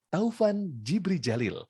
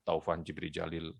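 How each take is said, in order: First: It is said warmly with a smiling voice. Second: It is said flatly without a smiling voice. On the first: The speaker calls it right. "sampaikan dengan tersenyum" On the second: The speaker calls it wrong. "Jadi bukan"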